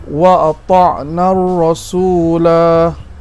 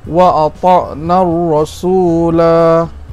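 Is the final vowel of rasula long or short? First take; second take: long; long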